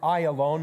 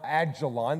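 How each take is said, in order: First: The name is said with a 'y' sound. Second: The name is said with a 'j' sound. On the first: The speaker calls it right. "we pronounce it Ayalon" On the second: The speaker calls it wrong. "not Ajalon. There's no J in Hebrew"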